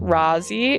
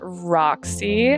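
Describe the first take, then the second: First: The middle consonant sounds like 'z'. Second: The middle consonant sounds like 'ks'. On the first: The speaker calls it right. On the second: The speaker calls it wrong.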